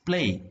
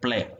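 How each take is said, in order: First: The vowel glides as a diphthong. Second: The vowel is a single pure vowel. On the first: "The R P diphthongs A is replaced by the pure vowel A" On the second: "ഒരു വവലാക്കി മാറ്റും"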